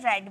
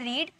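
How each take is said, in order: First: The vowel is short, like in 'red'. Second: The vowel is long, like in 'reed'. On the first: It is the past form of the verb. "इसकी pronunciation की जाती है रेड में" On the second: It is the present form of the verb. "First form हमारा होता है रीड"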